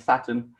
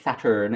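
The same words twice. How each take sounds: First: It is said in a British accent. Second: It is said in an American accent. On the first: The speaker calls it wrong. "with my British accent" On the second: The speaker calls it right. "which I should say Saturn in American"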